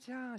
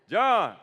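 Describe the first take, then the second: First: The name is said softly and breathily. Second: The name is said loudly and forcefully. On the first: A friendly greeting on the phone. "she's really sweet on the phone" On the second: A firm command to get up. "My mama had a powerful voice"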